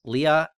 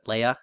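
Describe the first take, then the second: First: Leia said as "LEE-a"; Lee-a pronunciation. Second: Leia said as "LAY-a"; Lay-a pronunciation. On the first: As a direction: say Leia with a long "ee". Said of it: "insistent that it was". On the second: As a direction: say Leia with an "ay" vowel. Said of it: "everybody pronounced it". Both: Shown as a demonstration.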